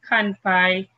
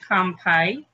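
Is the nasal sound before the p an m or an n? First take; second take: n; m. First: An n sound comes before the p. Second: An m sound comes before the p. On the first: "instead of kanpai" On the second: "every time with the N and P, it becomes an M sound"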